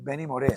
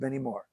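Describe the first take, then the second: First: The surname has two syllables, stressing the last. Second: The surname sounds like English one-syllable 'Moore'. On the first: The speaker calls it right. "es Benny Moré, mira dónde está el acento" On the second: The speaker calls it wrong. "no es [name]"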